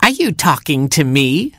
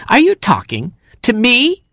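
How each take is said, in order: First: High, challenging skunk question; affronted Skunk. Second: Much higher, incredulous skunk question; outraged Skunk. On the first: Skunk to defiant Hamster, affronted. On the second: Skunk to defiant Hamster, escalating outrage. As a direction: squawk the challenge, climbing to a high finish. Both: A narrator's reading.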